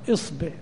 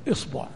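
First: The vowel after the b is i. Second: The vowel after the b is u. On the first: "والكسر" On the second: "والضم"

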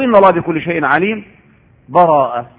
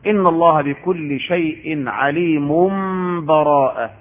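First: A stop with an audible breath precedes the last word. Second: The last word follows with no break at all. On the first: "ويأخذ نفسا" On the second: "في الوصف"

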